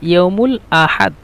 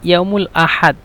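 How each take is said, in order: Both takes have the same delivery.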